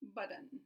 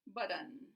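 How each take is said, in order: First: The middle T is a quick tap. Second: The same.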